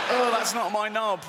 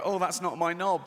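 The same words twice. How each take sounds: First: Higher-pitched startled exclamation; acted dismay. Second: Said in the usual way. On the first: Man looking down at his transplanted body, mock dismay. Repeated look down, heightened reaction.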